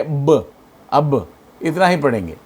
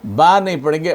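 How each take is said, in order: First: ब cut short with no vowel; अब read with a stopped, vowel-less ब; clipped half sound. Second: बा said with a long open aa; बा with a full long aa, the way not to read it; long vowel, wrong way. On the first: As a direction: stop the ब dead, as in अब. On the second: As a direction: stretch the vowel in बा. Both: Shown as a demonstration. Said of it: "उसे रोक के पढ़ेंगे".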